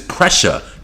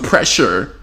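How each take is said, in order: First: The word ends with an open uh sound. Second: The word ends with an r sound. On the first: The speaker calls it right. "P R E S S H A. That's how they say it" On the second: The speaker calls it wrong. "You ain't even saying it right"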